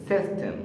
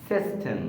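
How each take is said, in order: Both takes have the same delivery.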